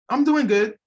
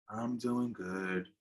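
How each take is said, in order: First: It sounds genuinely fine and convincing. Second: It sounds flat and not really fine.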